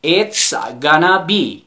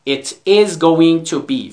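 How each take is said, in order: First: "gonna" run together as one word; reduced gonna. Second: "going to" as two separate words; full form. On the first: Teacher showing students the short form, "gonna" reduced. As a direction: say "gonna" in place of "going to". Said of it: "به جای going to بگیم gonna". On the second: Teacher explaining gonna to students, "going to" in full. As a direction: spell out "It is going to" uncontracted. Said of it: "یعنی it is going to be". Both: Shown as a demonstration.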